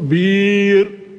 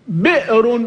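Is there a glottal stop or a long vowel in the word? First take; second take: long vowel; glottal stop. First: A long i vowel replaces the glottal stop. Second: A glottal stop is heard after the first consonant.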